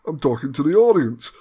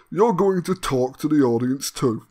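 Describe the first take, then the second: First: "audience" pressed hardest, falling away; stress on audience. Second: "you're" hit hard, then falling; stress on you're. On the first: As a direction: lean on the word "audience". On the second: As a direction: lean on "you're", not "audience". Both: Shown as a demonstration.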